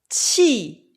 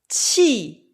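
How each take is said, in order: First: The syllable has a sharp falling tone. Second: The same.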